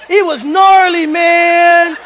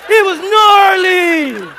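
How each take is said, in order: First: Louder, higher bro shout on gnarly; mock surfer dude. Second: Slow, high, loud stretched "gnarly" with a laugh; milk the word like a stoked dude; drawn-out mock surfer. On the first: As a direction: ham up a hyped beach dude. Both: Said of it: "a brother talking about".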